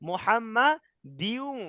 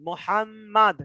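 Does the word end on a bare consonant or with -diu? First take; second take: -diu; bare consonant. First: The word ends with an added -diu sound. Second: The word ends abruptly on the final consonant. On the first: The reader continues without stopping. "যদি না থামি, যদি মিলে পড়ি" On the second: The reader stops at this word. "এখানে আমরা যখন থামবো"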